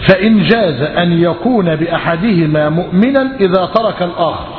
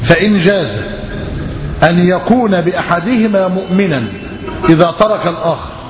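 First: The sentence is read at a normal pace. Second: The sentence is read very slowly.

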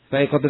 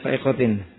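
First: The word ends with the vowel sound -un. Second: The word ends with the vowel sound -in. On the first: The word is the predicate of an omitted subject. "Khabar dari mutariyah mahdhuf" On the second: The word describes the noun before it. "boleh dibaca fa'iqatin. Na'at dari apa? Alfiyah"

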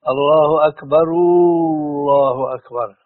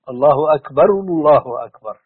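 First: The u-vowel is stretched long, almost like w. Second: The u-vowel is rounded but kept short. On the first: The speaker calls it wrong. "مثلا أنا الآن أنطق فيها خطأ" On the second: The speaker calls it right. "لكن لا بدون مد، لكن لابد من ضم"

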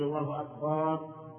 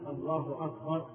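First: The vowel after the b sound is drawn out. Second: The vowel after the b sound is short. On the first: The speaker calls it wrong. "يمد الباء" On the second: The speaker calls it right. "لا بد أن يقول الله أكبر"

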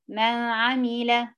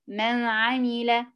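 First: The n is weak, tongue not reaching its place. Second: The n is clear, tongue touching its place. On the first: The speaker calls it wrong. "كسلة تطلعي لسانك في المخرج" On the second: The speaker calls it right. "لو لسانك ملمس المخرج فوق هيديك الصوت ده"

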